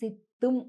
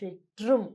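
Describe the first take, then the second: First: The middle consonant is a plain doubled t. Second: The middle consonant is a tr sound. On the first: This is how the word is written in Telugu books. "మామూలుగా తెలుగులో పుస్తకాలలో ఇక్కడ సిత్తుం అనుంటుంది" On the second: This is how Tamil speakers say the word.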